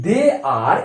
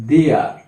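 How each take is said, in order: First: Said in the usual way. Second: "they are" run together as one short word, they're; contracted they're. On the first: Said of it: "এটাকে যদি contraction করি". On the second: Shown as a demonstration. Teacher demonstrating the contraction, "they are" merged into they're. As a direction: say "they are" as a quick single syllable. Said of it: "contraction করি আমরা এরকম বলবো".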